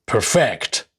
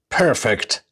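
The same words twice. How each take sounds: First: Perfect as per-FECT, second syllable stressed. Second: Perfect as PER-fect, first syllable stressed. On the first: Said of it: "the stress is shifted onto the second syllables". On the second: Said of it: "nouns and adjectives normally have the stress on their first". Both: Shown as a demonstration.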